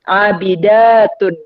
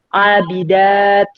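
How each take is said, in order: First: The word ends with a full -un ending. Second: The word stops short without the -un ending.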